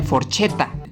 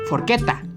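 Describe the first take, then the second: First: The middle consonant sounds like ch. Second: The middle consonant sounds like a k. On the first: The speaker calls it wrong. "no se dice forchetta" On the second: The speaker calls it right. "tendrá sonido de una letra K"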